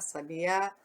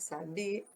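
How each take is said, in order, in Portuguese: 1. A sílaba tônica é a última. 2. A sílaba tônica é a do meio, bi. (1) "o A vai lá em cima" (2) "o bi"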